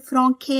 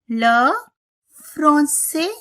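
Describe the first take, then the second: First: The c is pronounced as a k sound. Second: The c is pronounced as an s sound. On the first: The speaker calls it wrong. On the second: The speaker calls it right.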